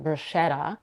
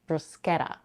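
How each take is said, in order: First: The middle consonant is an sh sound. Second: The middle consonant is a k sound. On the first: The speaker calls it wrong. "where the letters sch are pronounced as sh" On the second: The speaker calls it right. "The standard way to pronounce it"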